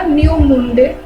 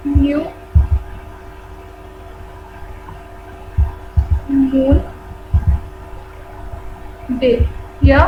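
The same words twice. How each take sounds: First: Said in the usual way. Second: new, moon, day said one word at a time with long pauses between; slow dictation. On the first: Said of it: "उस दिन हम बोलते हैं उसे क्या". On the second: Shown as a demonstration. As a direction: dictate new ... moon ... day slowly for note-taking. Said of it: "teacher dictates word by word". (धीरे-धीरे लिखवाते हुए: new ... moon ... day)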